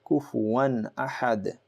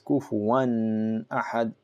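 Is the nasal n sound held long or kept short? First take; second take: short; long. First: The n sound is short and clear. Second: The nasal n sound is held longer. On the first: The speaker calls it right. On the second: The speaker calls it wrong.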